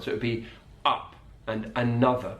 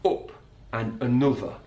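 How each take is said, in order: First: "up" and "another" with an open southern uh vowel. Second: "up" and "another" with a short northern oo vowel; Sheffield uh. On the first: Teacher contrasting the southern vowel with Yorkshire. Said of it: "it's an uh sound". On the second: Teacher imitating Harry Maguire's Sheffield vowels. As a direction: say "up" like "oop". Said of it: "But Harry Maguire from Sheffield". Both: Shown as a demonstration.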